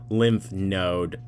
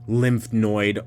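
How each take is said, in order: First: The second word is said like 'node'. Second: The second word is said like 'noid'. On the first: The speaker calls it right. "so I'm thinking node" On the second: The speaker calls it wrong. "You are saying noid"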